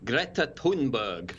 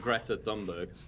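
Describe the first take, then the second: First: The name is said with Swedish pronunciation. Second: The name is said with English pronunciation. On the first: "I heard an actual Swedish person pronounce it as something like" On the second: "I'm not even going to try to appropriate that. So I'm going for"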